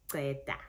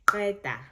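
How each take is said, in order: First: Qeda with the Joburg-style Q, less forceful; Joburg Zulu pronunciation. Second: QEDA with a proper Q click, punched louder; crisp click on the Q of qeda; proper Zulu click. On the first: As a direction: say qeda the Joburg way, softening the Q click. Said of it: "it's that Q sound". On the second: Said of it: "proper Zulu". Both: Shown as a demonstration.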